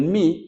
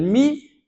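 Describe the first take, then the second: First: Said in the usual way. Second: "mi" said high and pointed; stress on mi. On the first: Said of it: "es una posesión". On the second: Shown as a demonstration. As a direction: hit "mi" to show possession. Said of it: "es la posesión".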